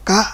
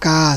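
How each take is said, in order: First: The syllable is said in the tho tone. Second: The syllable is said in the saman tone. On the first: "ไม่โท" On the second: "สิ่งสามัญ"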